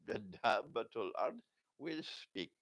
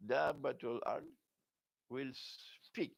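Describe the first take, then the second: First: Said in the usual way. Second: "Dabbatul Ard", pause, "will", pause, "speak"; emphatic pauses. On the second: Shown as a demonstration. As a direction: set "speak" apart after a deliberate silence. Repeats the phrase with deliberate pauses.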